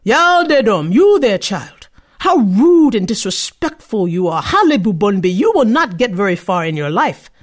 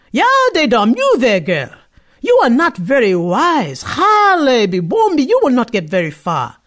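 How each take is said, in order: First: A louder, slightly weighty scolding tree; the tree rebukes a rude child. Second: Higher, louder scolding pot at the start; the pot warns a foolish girl. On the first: A tree scolding a rude girl, stern and loud. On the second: A cooking pot calling after the girl, stern warning. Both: Acted.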